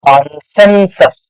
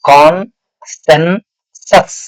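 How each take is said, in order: First: The syllables are joined into one smooth word. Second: The syllables are said separately with breaks. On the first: "ಎಲ್ಲ ಸೇರಿ ಓದ್ಬಿಡ್ಬೇಕು" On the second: "ನೀವು divide ಮಾಡ್ಬೇಕು word ಅನ್ನ"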